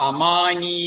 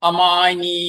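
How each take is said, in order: The two takes are said the same way.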